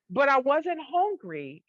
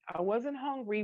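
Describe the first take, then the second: First: Hungry drawn out, higher and louder, slowly; stress on hungry. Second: Said in the usual way. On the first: Real, not acted. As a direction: lean on hungry hard and slow.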